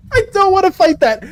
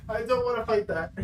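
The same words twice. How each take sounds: First: Raised voice of real reluctance; higher-pitched protest. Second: Real hushed, lower-energy reluctance; quiet refusal. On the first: Streamer refusing to face a monster, higher and insistent. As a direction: protest it higher, at full volume. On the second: Streamer refusing to face a monster, quietly. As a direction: say it softly, backing away from the mic. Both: Real, not acted.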